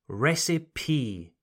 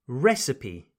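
First: Recipe said RES-ih-pee with a clear final E; correct recipe. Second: Recipe said RES-uh-pee, final E sounded; correct recipe. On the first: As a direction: model recipe, three syllables. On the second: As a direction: repeat Recipe as a model, three syllables. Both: Shown as a demonstration. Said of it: "Don't forget that E sound on the end".

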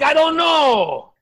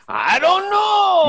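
First: Yelled high and loud, slow; shouted I don't know. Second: Very high, loud, slow yell; louder shouted I don't know. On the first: Shouting back at the interrogator, loud and slow. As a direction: shout it out, stretched. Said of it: "I'm like". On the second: Yelling back at the interrogator, louder still. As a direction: bellow it even higher. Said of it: "And I'm like". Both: Retold or imitated.

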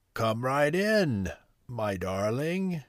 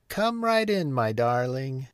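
First: Slow, drawn-out croak; wolf posing as grandmother, dragging the words; strange croaky voice. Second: High sing-out call, falling on "darling"; grandmother's high-pitched welcoming call. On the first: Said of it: "croaky voice". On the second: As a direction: call a welcome to someone at the door. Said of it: "called the grandmother". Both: A narrator's reading.

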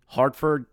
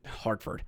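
First: Said in the usual way. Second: "Hartford" breathed as a whisper; whispered repeat. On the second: Real, not acted. Repeated place name.

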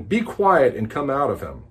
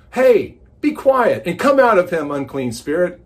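First: Said in the usual way. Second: A touch of a stern command, louder; commanding rebuke. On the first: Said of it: "Jesus rebuked him". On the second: Acted. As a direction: order the spirit out firmly. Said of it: "the guest speaker looks out and goes".

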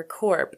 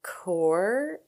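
First: "corp" with the P pronounced at the end; sounded final P. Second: "core" drawn out with no P at the end; silent final P. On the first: Vlogger comparing pronunciations, "corp" with its P sounded. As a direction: close "corp" on an audible P. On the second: Vlogger unsure of the company name, "core" with silent P. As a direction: say "core", ending open on the R. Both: Shown as a demonstration. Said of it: "I never know if it's".

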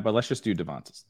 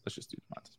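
First: Said in the usual way. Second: Whispered under the breath; whispering. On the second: Real, not acted. Repeats the pick, then whispers.

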